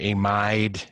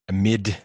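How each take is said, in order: First: The last syllable is said like 'ide'. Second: The last syllable is said like 'id'. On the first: It names the ion in potassium amide. "Ide for amide" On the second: It names the carbonyl nitrogen compound. "amid for this one"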